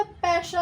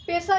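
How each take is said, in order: First: पैसा said slowly with an open ai, paisa; पैसा correctly, open ai vowel. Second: पैसा said with a plain e, pesa; पैसा with a thin e sound; wrong vowel. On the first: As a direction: stretch पैसा with a clear open ai. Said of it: "पैसा होता है". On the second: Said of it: "पैसा नहीं होता". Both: Shown as a demonstration.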